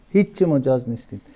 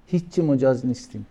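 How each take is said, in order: Both takes have the same delivery.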